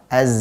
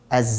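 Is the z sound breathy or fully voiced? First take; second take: voiced; breathy. First: The z is fully voiced with a continuous buzz. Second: The z is mixed with a breathy s-like hiss. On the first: The speaker calls it right. "Yang betul adalah" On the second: The speaker calls it wrong. "ini kan hams dari huruf sin"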